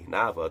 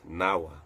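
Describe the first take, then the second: First: The middle consonant is a V sound. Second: The middle consonant is a W sound. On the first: "the Sanskrit word for ship" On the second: "pronounced as Nawa"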